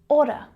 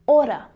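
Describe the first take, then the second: Both takes have the same delivery.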